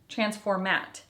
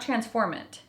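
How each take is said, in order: First: No n sound comes before the final t. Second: An n sound comes before the final t. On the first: The speaker calls it right. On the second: The speaker calls it wrong.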